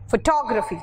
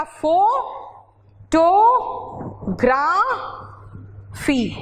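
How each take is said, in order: First: फोटोग्राफी as "fuh-TOG-ruh-fee", joined up; English syllable break. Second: फोटोग्राफी very slowly in four separate pieces, fo, to, graa, fee; split into syllables. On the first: Teacher shows how English people break फोटोग्राफी after the g, fuh-TOG-ruh-fee. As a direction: stress TOG in फोटोग्राफी, short unstressed "ruh". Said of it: "वो तोड़ देते हैं जी के बाद". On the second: Teacher shows the Hindi split of फोटोग्राफी, four drawn-out syllables with pauses. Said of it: "आपने चार syllable में तोड़ा है". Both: Shown as a demonstration.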